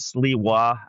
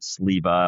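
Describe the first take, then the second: First: The name is said with a w sound. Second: The name is said with a v sound. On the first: This is how another bearer of the name says it. "He pronounces it, pronounces it Sliwa" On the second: This is how the speaker's own family says it. "but I've always pronounced it Sleva"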